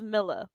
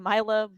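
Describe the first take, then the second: First: The first syllable sounds like 'mill'. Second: The first syllable does not sound like 'mill'. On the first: The speaker calls it right. "it is Milla like millions" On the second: The speaker calls it wrong. "I will probably still say Mila"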